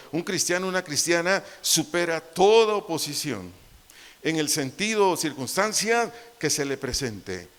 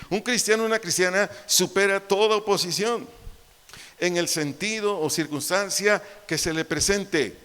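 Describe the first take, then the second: First: Said in the usual way. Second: Higher and louder emphatic repetition; raised preaching repeat. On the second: Shown as a demonstration. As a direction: drive it home harder. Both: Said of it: "Te lo vuelvo a decir".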